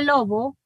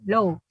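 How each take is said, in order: First: The middle b has clear audible friction. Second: The middle b is very soft, barely marked. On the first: "en el fricativo era lobo" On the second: "en el aproximante es low, ¿verdad? Casi eh, no se pronuncia eh, muy marcado"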